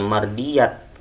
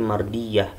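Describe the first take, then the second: First: The word ends with a t sound. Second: The word ends with an h sound. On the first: The speaker calls it wrong. "bukannya mardiyat" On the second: The speaker calls it right. "tapi mardiyah. Harus dibaca menjadi huruf H"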